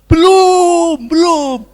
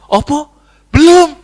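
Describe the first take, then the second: First: High, loud drawn-out crowd answer; crowd shouting back. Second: High, loud incredulous echo; feigned outraged disbelief. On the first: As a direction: shout it out as the whole congregation. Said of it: "Semua dia". (teriakan jemaat serempak, melengking) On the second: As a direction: fire the answer back as a shocked question. Abu Nawas feigns outraged disbelief. (pura-pura kaget, nada tinggi dan lantang) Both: Acted.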